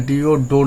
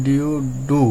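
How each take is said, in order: First: D O said as ডো with an o sound; the mistaken ডো reading; wrong reading ডো. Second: D O said as ডু with an u sound; correct reading ডু. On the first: (ভুল উচ্চারণ ডো) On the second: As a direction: land firmly on ডু. (সঠিক উচ্চারণ ডু) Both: Shown as a demonstration. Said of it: "D O ডো না হয়ে D O ডু".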